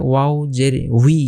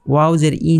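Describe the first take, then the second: First: Slow, drawn-out "উই" as wi; airy w glide. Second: "ই" as a bare ee, no w glide; mistaken bare vowel. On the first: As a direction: round into "উই", w plus ee, letting a little air out. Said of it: "বাতাস একটু বের হবে". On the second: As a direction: end on "ই", a plain ee without rounding the lips. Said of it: "ই উচ্চারণ করলে ভুল হয়ে যাবে". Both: Shown as a demonstration.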